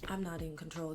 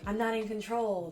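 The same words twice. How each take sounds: First: It is said in an unhappy, upset tone. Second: It is said in a happy, pleased tone. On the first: Losing control is unwelcome. "this sucks" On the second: Losing control is welcome. "like great, this is awesome"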